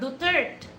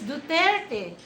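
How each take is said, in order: First: The name is said with a French-style pronunciation. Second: The name is said with a Filipino pronunciation. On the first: The speaker calls it wrong. "he's not Duterte" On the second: The speaker calls it right. "he's Duterte"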